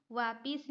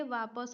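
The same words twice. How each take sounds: First: वापिस said with a clear इ: "वा-पिस"; wrong spelling said aloud. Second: वापस said with a neutral a: "वा-पस"; correct form. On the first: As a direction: sound out वापिस with the short i. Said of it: "वापिस नहीं होता है". (वापिस को "इ" के साथ बोलें) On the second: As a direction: say वापस plainly, no इ sound. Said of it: "वापस होता है". (वापस को "अ" के साथ बोलें) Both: Shown as a demonstration.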